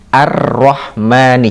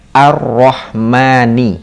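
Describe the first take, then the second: First: The L is silent and the R is doubled. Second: The same.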